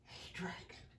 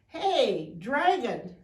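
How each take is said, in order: First: It is whispered very softly. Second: It is shouted very loudly.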